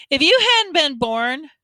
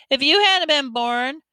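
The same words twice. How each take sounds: First: "you" in "If you hadn't been born" pushed up and louder; stress on you. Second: "hadn't" in "If you hadn't been born" rising and leaned on; stress on hadn't. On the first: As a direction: lean on "you", the one to blame. Byron presses his point. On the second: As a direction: hang the point on "hadn't". Byron repeats his point. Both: Acted.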